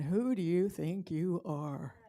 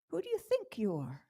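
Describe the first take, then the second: First: The stress falls on the word are. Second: The stress falls on the word think.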